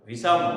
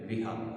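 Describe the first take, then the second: First: The middle consonant is an 's' sound. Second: The middle consonant is an 'h' sound.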